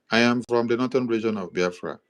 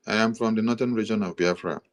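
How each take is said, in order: Both takes have the same delivery.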